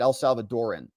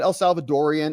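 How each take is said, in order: First: The word ends with a plain 'an' sound. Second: The word ends with an 'ee-an' sound. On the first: "or is it El Salvadoran?" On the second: "Is there an I at the end?"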